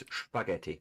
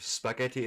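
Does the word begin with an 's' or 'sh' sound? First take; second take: sh; s. First: The word begins with an 'sh' sound. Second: The word begins with a plain 's' sound. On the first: This is the German way. "it's spaghetti ... you're basically just putting this sound in front of it" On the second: This is the usual non-German way. "Instead of spaghetti"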